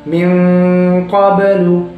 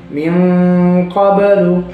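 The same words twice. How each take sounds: No difference in how they are said.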